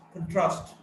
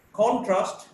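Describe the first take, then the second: First: "contrast" as con-TRAST; weak start, strong TRAST in "contrast"; stress on second syllable. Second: "contrast" as CON-trast; stress on first syllable. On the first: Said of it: "stressed in the second syllable". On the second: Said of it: "stressed in the first syllable". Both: Shown as a demonstration.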